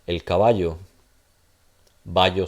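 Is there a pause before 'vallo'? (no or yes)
yes. It pauses before vallo, which starts with a stop. "So I'm going to pause. This is going to now sound like a stop"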